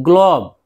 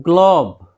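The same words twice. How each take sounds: No difference in how they are said.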